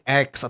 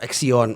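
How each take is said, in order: First: It is said as the single letter X. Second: It is said as ax-ee-on, three syllables. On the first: "banyak orang yang salah sebut" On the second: "banyak orang yang salah sebut"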